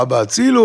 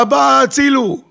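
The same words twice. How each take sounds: First: Said in the usual way. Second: High-pitched acted cry for help; imitating a woman screaming for help; retold scream. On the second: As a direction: cry out to dad for rescue. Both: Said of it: "היא צעקה".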